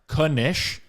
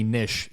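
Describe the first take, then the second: First: The word starts with a K sound before N. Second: The word starts with a plain N sound. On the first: The speaker calls it right. "I pronounced it correctly" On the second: The speaker calls it wrong. "Some people say Nish. It's completely wrong"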